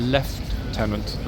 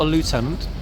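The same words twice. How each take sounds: First: It is said with a British pronunciation. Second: It is said with an American pronunciation. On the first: The speaker calls it right. "British pronunciation of lieutenant" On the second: The speaker calls it wrong. "Not a lieutenant"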